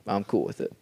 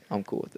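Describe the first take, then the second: First: Said in the usual way. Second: Breathy whisper, voice dropped right off; soft whispered echo. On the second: Shown as a demonstration. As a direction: repeat it under your breath as a private aside. Repeats line, then whispers it.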